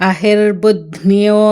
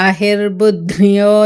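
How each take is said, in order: Both takes have the same delivery.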